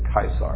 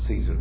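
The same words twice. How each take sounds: First: The word begins with a hard K sound. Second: The word begins with a soft S sound. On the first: This is how the ancient Romans said it. The speaker calls it right. "They pronounced it Caesar" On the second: This is the modern, non-Roman way of saying it. The speaker calls it wrong. "the Romans didn't pronounce it Caesar"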